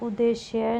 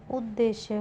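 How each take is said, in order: First: उद्देश्य with a single d; wrong pronunciation. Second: उद्देश्य with a doubled d; correct pronunciation. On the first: Teacher showing a spelling error, उद्देश्य as u-deshya. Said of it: "नहीं होगा". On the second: Teacher giving the correction, उद्देश्य as ud-deshya. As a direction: hold the first d: ud-deshya. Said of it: "द दो बार आएंगे". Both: Shown as a demonstration.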